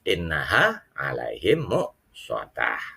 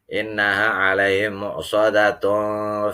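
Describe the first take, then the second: First: The last word ends in an h sound. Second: The last word ends in tun, running on. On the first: The reader stops at the end of the verse. "kalau dibaca waqaf" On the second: The reading continues into the next verse. "harusnya ikhfa dong"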